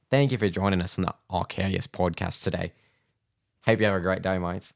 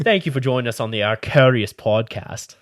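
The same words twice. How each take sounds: First: Hammed-up Aussie podcast sign-off; mock Aussie accent. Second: Put-on a shaky, loud Aussie accent; bad Aussie accent. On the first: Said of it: "I'll think about Sheila and then the shrimp on the bobby". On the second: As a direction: do a bad Aussie accent, drifting toward British. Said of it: "Aussie accent?".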